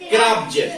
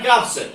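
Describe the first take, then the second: First: The final sound is a buzzing z. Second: The final sound is a hissing s. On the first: The speaker calls it right. "तो यहां जा से होगा" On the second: The speaker calls it wrong. "नहीं तो अगर अपन को ये नियम पता नहीं होगा तो अपन क्या पढ़ लेंगे? साधारण"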